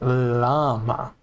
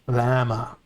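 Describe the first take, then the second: First: The opening L sound is drawn out long. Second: The opening L sound is short and plain. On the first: The speaker calls it right. "It's pronounced llama, it's a long L" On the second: The speaker calls it wrong. "not llama"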